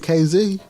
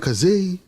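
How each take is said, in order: First: The name is said as two separate letters. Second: The name is said as one blended word. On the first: The speaker calls it right. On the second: The speaker calls it wrong.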